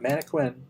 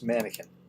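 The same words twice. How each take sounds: First: The middle sound is a KW sound. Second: The middle sound is a plain K sound. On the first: The speaker calls it wrong. "It's not" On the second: The speaker calls it right. "with a K sound"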